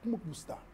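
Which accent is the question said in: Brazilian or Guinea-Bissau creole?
Guinea-Bissau creole. Said in a Guinea-Bissau creole accent. "O crioulo de Guiné-Bissau te pergunta"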